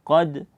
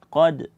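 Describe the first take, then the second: No difference in how they are said.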